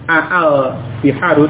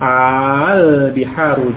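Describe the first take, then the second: First: The opening vowel is split by two glottal stops. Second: The opening vowel is one long drawn-out vowel. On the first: The speaker calls it wrong. "tidak menjadi al biharu dengan dua hamzah aa, tidak seperti itu" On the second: The speaker calls it right. "tetapi menjadi satu dengan bacaan mat, dengan bacaan panjang"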